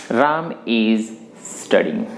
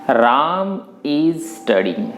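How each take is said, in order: Both takes have the same delivery.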